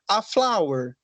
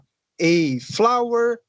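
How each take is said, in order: First: The article sounds like an open 'ah'. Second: The article sounds like the letter name 'ay'. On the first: "falar igual o nosso alfabeto" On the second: "como se fosse o alfabeto em inglês"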